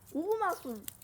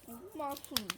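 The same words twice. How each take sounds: First: The word is said loudly. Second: The word is said at a normal, quiet volume.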